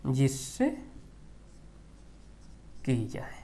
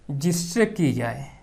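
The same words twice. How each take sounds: First: Softer, drawn-out repeat for notes; quiet dictation, trailing off; slow dictation repeat. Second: Said in the usual way. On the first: Shown as a demonstration. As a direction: repeat slowly so students can write. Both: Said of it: "उपमान मतलब".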